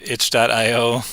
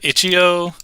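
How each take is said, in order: First: The name is said with the word dot. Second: The name is said without the word dot. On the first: "Some people call it itch dot io" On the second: "Some people call it itch.io"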